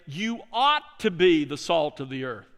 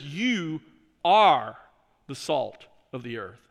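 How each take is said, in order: First: The line Jesus did not say, with "ought" marked; stress on ought. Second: The true version set against the "ought" line, with "are" stressed. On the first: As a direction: lean on "ought", the wrong version. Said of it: "notice Jesus doesn't say". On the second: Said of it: "He says". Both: Shown as a demonstration.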